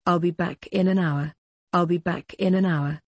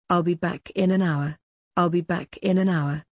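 The two takes are said the same way.

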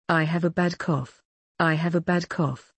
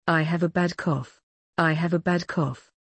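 No difference in how they are said.

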